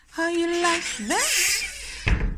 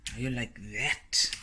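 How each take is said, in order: First: Much higher, slow, drawn-out playful squeak; silly squeaky voice. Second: Said in the usual way. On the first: Acted. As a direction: ham up the question in a silly high voice. Repeats the question in another voice.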